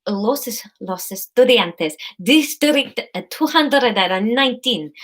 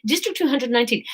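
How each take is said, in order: First: Halting, put-on Spanish accent; attempted Spanish accent. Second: Said in the usual way. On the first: Courier pretending to read a label, put-on Spanish accent. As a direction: try the Spanish accent carefully. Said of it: "I just can't do accents at all".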